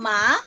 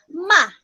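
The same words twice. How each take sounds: First: The pitch rises through the syllable. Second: The pitch falls sharply and forcefully. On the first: "sa akyat lang" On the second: "the fourth tone is going down"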